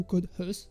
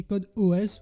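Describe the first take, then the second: First: "hus" said as one syllable; one-word pronunciation. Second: "O S" said as two separate letters; spelled-out pronunciation. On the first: Tutor offers readings of the app name, "hus" as one word. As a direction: run the letters of "hus" together as a word. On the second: Tutor offers readings of the app name, "O S" spelled out. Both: Shown as a demonstration. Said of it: "ça dépend comment on le dit".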